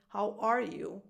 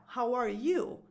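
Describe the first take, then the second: First: ARE stressed, falling afterwards; weight "are", let "you" fall away. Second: YOU stressed with a rising lift. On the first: Just asking as the first question, ARE stressed. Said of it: "if it's the first question". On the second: Asking the other person in return, YOU stressed and rising. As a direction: throw the question back on "you". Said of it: "So you're asking now". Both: Shown as a demonstration.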